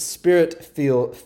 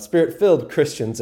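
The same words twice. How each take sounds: First: "spirit feel" in a southern accent, filled said as feel; southern accent slip. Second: Said in the usual way. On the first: Real, not acted. Preacher's southern accent slips out mid-phrase, southern accent. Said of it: "that was my little, uh, southern accent coming out". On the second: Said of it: "Sorry, that was my little".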